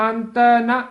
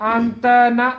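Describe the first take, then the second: The two takes are said the same way.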